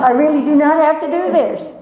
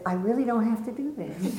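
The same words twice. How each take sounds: First: Higher and louder, insisting on "not"; emphatic inner voice. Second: Softer, hesitant self-talk with a laugh; quiet inner voice. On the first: On the high dive, an emphatic loud refusal. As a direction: push the refusal hard. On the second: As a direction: doubt murmured to yourself. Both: Retold or imitated. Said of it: "a part of me that said".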